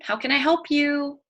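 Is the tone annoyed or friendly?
friendly. It sounds warm and friendly.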